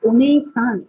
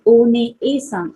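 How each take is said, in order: First: Said in the usual way. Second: ओने-ए-सान with the ए held long and slow; slow teacher demo of ओने-ए-सान; drawn-out vowel. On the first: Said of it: "अगर आप ओने-सान करते हो". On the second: Shown as a demonstration. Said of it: "देखो pronunciation".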